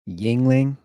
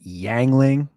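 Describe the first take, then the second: First: The first syllable sounds like 'ying'. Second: The first syllable sounds like 'yang'. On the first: This is the usual pronunciation. "I drink uh Yingling" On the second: This is how someone else said it. "or as he called it, Yangling. He always pronounced it wrong"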